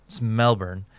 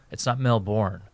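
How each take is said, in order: First: Melbourne with a swallowed ending, "Mel-bn"; "Melbourne" with a weak second syllable; local Australian pronunciation. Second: Melbourne with a full, stressed second syllable; "Melbourne" with the ending sounded out; mispronounced Melbourne. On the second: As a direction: say "Melbourne" as spelt, like "Mel-born". Corrects how Melbourne is said. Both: Shown as a demonstration.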